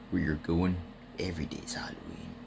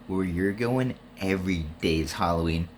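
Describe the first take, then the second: First: It is said in an imitated Spawn voice. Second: It is said in the speaker's normal voice.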